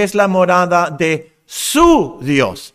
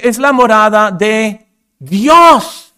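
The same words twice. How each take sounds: First: "su" stretched out and set apart before "Dios"; slow phrase with a long, punched "su"; stress on SU. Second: Slow, loud build to a set-apart "Dios"; pause, then proclaim "Dios" high and loud; "Dios" boomed out and stretched; stress on DIOS. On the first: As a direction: hit "su" hard, hold it, then pause. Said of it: "enfatizando la palabra su Dios". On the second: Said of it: "quiero enfatizar la palabra Dios". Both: Shown as a demonstration.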